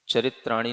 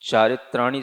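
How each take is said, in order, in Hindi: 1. पहला स्वर ह्रस्व है। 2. पहला स्वर दीर्घ है। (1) "चरित्राणी नहीं पढ़ना।" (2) "चारित्राणी शब्द उसमें लिखा हुआ आता है"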